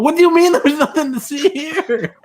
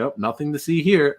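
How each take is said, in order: First: High-pitched retold disbelief; incredulous outburst. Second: Offhand retold all-clear; casual dismissal. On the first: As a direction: throw it back in exasperated disbelief. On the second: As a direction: wave it away casually, as if quoting someone. Retold dismissal after investigating.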